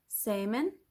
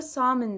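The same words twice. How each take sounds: First: "salmon" said SAY-min, the L silent; other way to say salmon. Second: "salmon" said SAM-in, with a short open a; one way to say salmon. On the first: Teacher showing students the other accent's "salmon", slow and careful. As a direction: model "salmon" slowly as SAY-min, no L sound. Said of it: "L'yi, e, hiç telaffuz etmiyorsunuz". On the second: Teacher showing students one accent's "salmon", careful pronunciation. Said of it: "Yani aksanınıza bağlı". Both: Shown as a demonstration.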